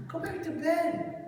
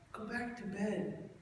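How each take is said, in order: First: High, loud, slow mock dad telling him off; louder, high-pitched "Go back to bed"; sleepy dad ordering. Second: Slow, softer mock dad settling back down; quieter, sleepy "Go back to bed"; sleepy dad trailing off. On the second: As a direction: drift off while saying it. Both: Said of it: "He goes".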